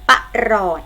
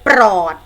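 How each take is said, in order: First: It is split into two syllables, pa-rot. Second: It is said as one syllable with a cluster. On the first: The speaker calls it right. "พยางค์แรกจะออกเสียงอะกึ่งเสียง" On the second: The speaker calls it wrong. "รีบอ่านทันทีเลยปรอดอาดไม่ใช่นะคะ"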